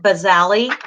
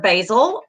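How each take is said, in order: First: BASALI said with an extra "ee" syllable on the end; alternate pronunciation. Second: Said in the usual way. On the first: Shown as a demonstration. Instructor showing students how some people say it, "basali" as buh-ZAL-ee. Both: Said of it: "some people pronounce it".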